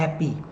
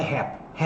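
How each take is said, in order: First: "happy." ending clearly in an "ee" sound; final Y pronounced. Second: "happy" cut short, final Y swallowed; final Y dropped. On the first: ("happy." com o Y final pronunciado, como "i") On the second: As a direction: say "happy" without the final Y sound. ("happy" sem pronunciar o Y final) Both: Shown as a demonstration. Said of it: "pronuncie o Y no final".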